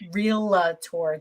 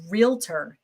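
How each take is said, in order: First: An extra vowel is inserted between L and T. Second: It has two syllables, with no extra vowel. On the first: The speaker calls it wrong. "not realtor. There's no A" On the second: The speaker calls it right. "It is realtor"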